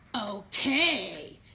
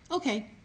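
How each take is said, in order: First: It is said in an annoyed, unkind tone. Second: It is said in a pleasant, cooperative tone. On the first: The child agrees grudgingly. The speaker calls it wrong. "Same word, but just a different tone" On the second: The child agrees willingly. The speaker calls it right. "That's an example of a really good prompting of a behavior"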